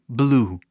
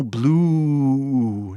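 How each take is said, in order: First: BLUE with a moderately lengthened U; slightly long vowel. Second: BLUE with the U hugely drawn out; exaggerate, holding the U of BLUE far too long; overlong vowel. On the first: Teacher shows the right amount, BLUE slightly lengthened. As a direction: stretch the U of BLUE just a little. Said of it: "só um pouquinho mais". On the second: Teacher jokingly shows too much, BLUE overstretched. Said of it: "não precisa ser grande assim". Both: Shown as a demonstration.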